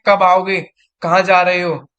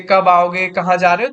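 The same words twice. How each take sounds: First: Angry mother. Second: Calm demo. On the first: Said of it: "mummy मुझसे गुस्से में कहती है". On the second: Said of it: "वही चीज बोलना आराम से". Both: Shown as a demonstration.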